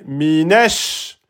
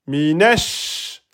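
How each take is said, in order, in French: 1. Le son sh est tenu et doublé. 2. Le son sh est tenu et doublé.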